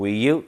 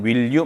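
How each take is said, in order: First: The L sound in 'will' is dropped. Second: The L sound in 'will' is clearly pronounced. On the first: The speaker calls it right. "will you 이렇게 익혀놓으세요" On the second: The speaker calls it wrong. "그냥 will you 말고"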